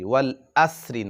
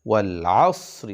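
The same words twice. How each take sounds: First: The 'a' comes cleanly from the front. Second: The 'a' comes from deep in the throat. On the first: The speaker calls it wrong. "ওয়াল আসরি না" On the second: The speaker calls it right. "আ আ গলার ভিতর থেকে"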